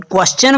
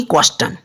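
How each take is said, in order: First: "क्वेश्चन" with a ch sound, as kwes-chan; correct pronunciation. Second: "क्वेश्चन" mispronounced with a hard T, as kwes-tan; wrong pronunciation. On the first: Teacher answering the rule, "क्वेश्चन" with a ch sound. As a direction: say a clear च in "क्वेश्चन", not ट. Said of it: "इसको क्या बोलेंगे?". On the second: Teacher showing what not to say, "क्वेश्चन" with a hard T. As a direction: put a hard ट in "क्वेश्चन" in place of च. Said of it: "बोलेंगे ना कि". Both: Shown as a demonstration.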